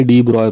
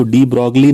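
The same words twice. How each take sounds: First: डी ब्रॉय said di broy, with no g and no l; correct pronunciation. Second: डी ब्रॉगली read as spelt, with a hard g and an l: di brog-lee; wrong spelling pronunciation. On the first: Teacher gives students the correct reading, डी ब्रॉय said as di broy. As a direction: give the proper French reading: डी ब्रॉय as di broy. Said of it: "बल्कि डी ब्रॉय पढ़ना चाहिए". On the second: Teacher shows students the wrong reading, डी ब्रॉगली said as spelt. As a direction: say डी ब्रॉगली the wrong way, sounding out every letter. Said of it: "उसको डी ब्रॉगली नहीं पढ़ना चाहिए".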